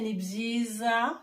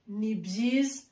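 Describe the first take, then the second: First: The final vowel is clearly pronounced. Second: The final vowel is dropped. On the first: The speaker calls it wrong. "we don't say nibziza, like really pronounce or sound hard, like the last vowel" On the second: The speaker calls it right. "Like we say nibziz"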